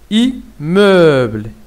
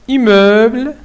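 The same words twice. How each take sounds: First: "immeuble" slowly as "i... mmeuble"; split into syllables. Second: Said in the usual way. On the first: Shown as a demonstration. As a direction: pause after "i", then a drawn-out "mmeuble". (« immeuble » lentement, en syllabes : « i… mmeuble ») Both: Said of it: "la même chose".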